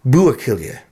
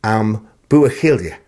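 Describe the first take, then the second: First: "Ambuachilia" with the stress on "bu"; careful Gaelic pronunciation. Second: "Am Buachilde" said slowly, a quick neutral "Am" and a soft A; slow careful Gaelic pronunciation. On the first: Presenter retrying a listener's correction, careful Gaelic pronunciation. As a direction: say "Ambuachilia" as a first attempt, stress on "bu". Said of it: "with the emphasis on the first syllable bu".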